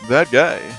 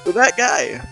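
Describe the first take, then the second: First: It is said in a suave voice. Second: It is said in a plain voice.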